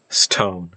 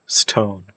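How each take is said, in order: No difference in how they are said.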